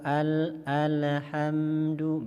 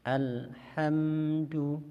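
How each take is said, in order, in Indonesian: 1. L-nya mantul dengan gema saat dilepas. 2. L-nya terputus dengan henti singkat. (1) "berarti huruf lamnya seperti uh, mantul atau qalqalah" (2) "berarti lamnya uh, seperti saktah"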